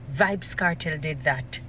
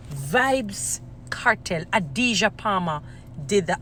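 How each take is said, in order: First: Said in the usual way. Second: Slow emphatic naming. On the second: Real, not acted. Crediting the artist by full name, slow and emphatic. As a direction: announce the name with long, weighty pauses.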